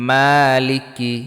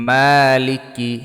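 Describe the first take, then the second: No difference in how they are said.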